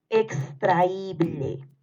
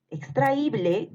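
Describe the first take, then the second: First: Very slow, drawn-out "extraíble"; dictation. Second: Said in the usual way. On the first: Shown as a demonstration. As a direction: stretch out every syllable of "extraíble" for pupils writing. (dictado lento, alargando "extraíble") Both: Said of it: "Te vuelvo a repetir".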